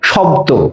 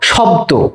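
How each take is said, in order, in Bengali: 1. শব্দটি 'o' স্বরধ্বনিতে শেষ হয়। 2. শব্দটি 'o' স্বরধ্বনিতে শেষ হয়।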